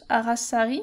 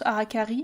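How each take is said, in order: First: The middle consonant is an s sound. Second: The middle consonant is a k sound. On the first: This is the French pronunciation, written with a cedilla. "tu prononces Arasari" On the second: This is the English pronunciation, without a cedilla. "moi j'avoue je prononce Arakari"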